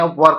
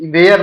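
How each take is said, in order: First: Were said with a short er sound, the correct way; right pronunciation. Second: Where said like the place word, wrong; wrong pronunciation. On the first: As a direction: were with a short er, not where. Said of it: "where pronunciation सही नहीं है". (were सही उच्चारण) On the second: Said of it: "where नहीं पढ़ते हैं". (where गलत उच्चारण) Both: Shown as a demonstration.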